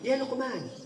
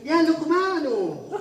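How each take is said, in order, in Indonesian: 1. Namanya berakhir dengan n mati, tanpa vokal. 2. Namanya berakhir dengan vokal u. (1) "dalam bahasa percakapan" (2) "Meskipun kalau pas lagi ngomong aneh"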